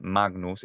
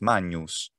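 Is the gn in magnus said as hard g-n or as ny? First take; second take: hard g-n; ny. First: The gn is said as a hard g plus n. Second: The gn is said as a ny sound. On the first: This follows the reconstructed classical pronunciation. The speaker calls it wrong. "It's not magnus" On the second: This follows the ecclesiastical Italian-style pronunciation. The speaker calls it right. "it's magnus"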